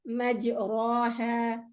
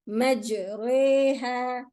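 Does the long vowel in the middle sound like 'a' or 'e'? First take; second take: a; e. First: The long middle vowel is a plain open a. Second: The long middle vowel leans toward an e sound. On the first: The speaker calls it wrong. "not majraha" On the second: The speaker calls it right. "this is the only place where the madda has an imala"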